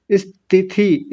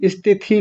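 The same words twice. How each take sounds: First: स्थिति said as इस्तिति; wrong istiti. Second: स्थिति with स्थ, no leading vowel; correct sthiti. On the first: Retold or imitated. Teacher imitates mistaken इस्तिति. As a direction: put a vowel before स्थिति. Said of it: "तो वो कैसे बोलते हैं?". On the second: Shown as a demonstration. Teacher corrects the class, clean स्थिति. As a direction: start स्थिति right on the स. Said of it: "स्थिति नहीं स्थिति".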